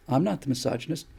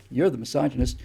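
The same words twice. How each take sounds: First: "not" lifted with a rise to deny the label; stress on NOT. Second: "You're" hit first, the line falling after it; stress on YOU'RE. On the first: To young critics, denying he is the misogynist, stress on "not". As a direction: lean on "not", pushing the label off yourself. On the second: Turning the charge back on his critics, stress on "You're". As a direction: point the blame back with "You're". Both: Shown as a demonstration.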